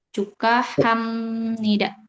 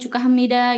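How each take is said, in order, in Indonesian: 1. Diucapkan lambat dengan setiap bunyi jelas. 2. Diucapkan cepat dengan bunyi n samar.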